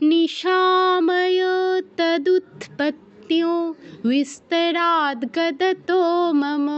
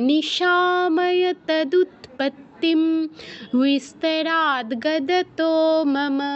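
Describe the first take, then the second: First: The words run together with a nasal ng sound. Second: A final m sound, then a slight pause. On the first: "যদি একসাথে বলতে চাই অনুসারের জায়গায় ও হসন্ত" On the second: "যদি একটু হালকা থামতে চাই তাহলে ময় হসন্ত উচ্চারণ হবে"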